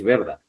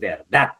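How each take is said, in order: First: The stress is on the first syllable. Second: The stress is on the last syllable. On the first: The speaker calls it wrong. "No va a decir es verdad" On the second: The speaker calls it right. "la mayor fuerza de voz en la última sílaba"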